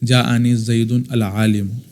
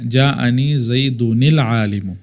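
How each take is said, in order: First: Zaidun ends, then al-alim starts separately. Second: Zaidun links into alim with an added -i. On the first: The speaker calls it wrong. "तलबा इस तरह पढ़ते हैं, ये पढ़ना गलत है" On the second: The speaker calls it right. "ये सही तरीक़ेकार है"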